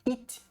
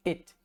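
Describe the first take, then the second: First: "it" with a pure Portuguese i vowel; "it" pronounced as if it were "í"; wrong vowel demo. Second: "It" with a short lax vowel close to e; "It" with an e-like vowel, not a Portuguese i; correct vowel demo. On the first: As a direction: say "it" like the Portuguese i, tense and long. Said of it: "não é it". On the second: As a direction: say "It" nearer to "ét" than "ít". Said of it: "ele é mais próximo de um som de e". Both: Shown as a demonstration.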